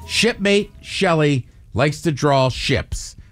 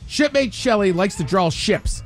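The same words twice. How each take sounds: First: It is read at a normal pace. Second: It is read fast.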